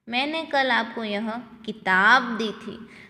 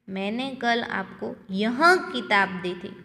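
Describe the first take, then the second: First: The stress is on किताब. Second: The stress is on यह.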